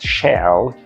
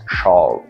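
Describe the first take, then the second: First: The vowel sounds like the 'e' in 'shell'. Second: The vowel is deeper, made back in the throat. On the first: The speaker calls it wrong. "not shall, because it is a kind of seafood" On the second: The speaker calls it right. "it is pronounced with your throat"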